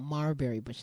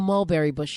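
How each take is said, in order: First: The first syllable is said with an R sound. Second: The first syllable is said with a clear L.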